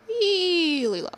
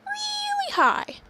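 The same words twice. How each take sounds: First: Really low. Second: Very high, drawn-out squeak; really high. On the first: Announcing Ross's voice for the play, sliding down low. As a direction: stretch it out, sliding downward. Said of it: "Ross is gonna talk". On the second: Announcing Gil's voice for the play, really high. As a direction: stretch it out way up high. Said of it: "And Gil is gonna talk". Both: Shown as a demonstration.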